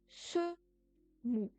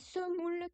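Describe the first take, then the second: First: The word ends without the final L sound. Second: The word ends with its final L sound. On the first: The form used when saying an age. "en se mou pour vingt" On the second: The plain counting form. "c'est semoule qui va se transformer"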